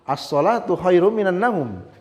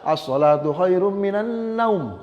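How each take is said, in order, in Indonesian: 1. Vokal terakhir dipanjangkan sangat panjang. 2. Vokal terakhir dipotong sangat pendek. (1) "seperti orang azan subuh ya" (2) "Cuma tidak boleh juga"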